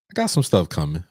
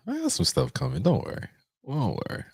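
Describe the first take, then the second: First: Said in the usual way. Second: Tiny falsetto tease; small, high, teasing squeak; playful high soft voice. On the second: Pretend. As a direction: go way up high and quiet.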